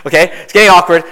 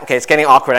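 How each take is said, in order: First: Louder amused repeat. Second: Said in the usual way. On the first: Real, not acted. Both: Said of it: "I see some girls in the back just chuckling".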